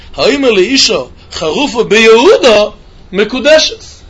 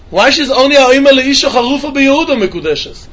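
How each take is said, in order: First: Slow, drawn-out Gemara chant; slow Gemara reading. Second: Said in the usual way. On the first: Shown as a demonstration. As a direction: read each word of "Ha'omer le'isha charufa beYehuda mekudeshes" slowly, like reciting the text. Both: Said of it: "I'm doing in the Gemara".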